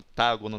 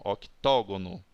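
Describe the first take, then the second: First: The vowel after 'oct' is an 'a' sound. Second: The vowel after 'oct' is an 'o' sound. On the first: The speaker calls it wrong. "Não fala octágono, não" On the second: The speaker calls it right.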